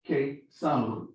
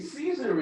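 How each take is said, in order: First: The word begins with a hard k sound. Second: The word begins with a soft s sound. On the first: "The original pronunciation of the C in Latin is Ke" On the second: "we would say Caesar in English"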